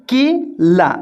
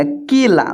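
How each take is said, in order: First: Slow sounded-out word. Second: Said in the usual way. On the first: Shown as a demonstration. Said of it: "केला बोलने पर". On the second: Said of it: "क में ए की मात्रा".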